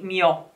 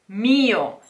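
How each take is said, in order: First: The stress falls on the second syllable. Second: The stress falls on the first syllable. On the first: The speaker calls it wrong. "You cannot say mio" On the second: The speaker calls it right. "This word has the stress on the I"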